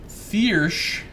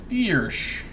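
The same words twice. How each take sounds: Both takes have the same delivery.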